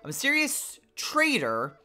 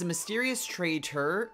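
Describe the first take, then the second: First: The middle consonant of trader sounds like D. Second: The middle consonant of trader sounds like T. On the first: The speaker calls it right. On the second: The speaker calls it wrong.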